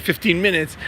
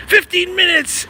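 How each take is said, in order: First: Said in the usual way. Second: High, slow and mocking. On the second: Mocking a quick-fix promise, high sarcastic voice. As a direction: say fifteen minutes with high mock scorn.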